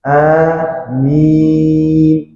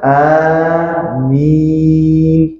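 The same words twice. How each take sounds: First: The first vowel is drawn out long. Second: The same.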